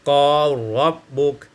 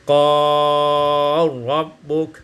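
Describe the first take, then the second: First: The lengthened vowel is held short. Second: The lengthened vowel is held medium length.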